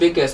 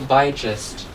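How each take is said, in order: First: The middle g is a hard g sound. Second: The middle g is a soft g sound. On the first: "it will not become biggest" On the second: "The G will turn into a soft G"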